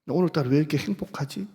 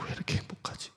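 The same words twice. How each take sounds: First: Said in the usual way. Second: 왜 이렇게 행복하지 breathed out as a whisper, no voice. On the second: Retold or imitated. Pastor recalls a happy moment at home, whispering. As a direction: hush it like a secret joy. Retold happy inner thought.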